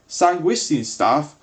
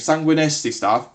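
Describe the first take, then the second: First: The name ends with a 'stine' sound. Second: The name ends with a 'nesti' sound. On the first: The speaker calls it wrong. "apparently I've been pronouncing it wrong the entire time" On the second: The speaker calls it right. "as it's actually called"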